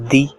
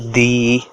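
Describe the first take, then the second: First: The syllable is short and gentle. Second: The vowel is stretched out long. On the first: The speaker calls it right. "You have to say it politely like di" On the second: The speaker calls it wrong. "you don't have to stretch a word"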